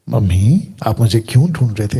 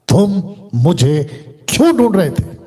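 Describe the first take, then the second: First: It is said in a soft, gentle voice. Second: It is said in a firm, stern voice.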